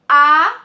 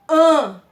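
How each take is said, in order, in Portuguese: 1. A vogal é oral, sem som nasal. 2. A vogal é nasalizada, ressoando pelo nariz. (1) "som oral" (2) "O som fica nasalado"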